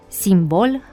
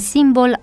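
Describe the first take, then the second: First: The stress is on the second syllable. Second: The stress is on the first syllable. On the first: The speaker calls it right. "trebuie să fie accentuate ca în limba franceză" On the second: The speaker calls it wrong. "Greșite sub aspectul accentuării; accentuarea pe prima silabă întâlnită frecvent"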